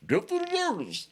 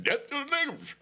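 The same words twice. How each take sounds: First: David Chappelle voice. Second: Said in the usual way. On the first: Retold or imitated. Mocking drunk skinheads on the yard, hammed-up comic impression. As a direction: play the yard chant like a Chappelle sketch character. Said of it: "David Chappelle voice". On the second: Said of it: "So they yelling".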